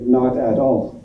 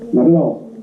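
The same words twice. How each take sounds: First: Each word is said separately. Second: The words run together smoothly.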